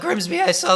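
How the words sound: The voice is high and squeaky. "a squeaky little like"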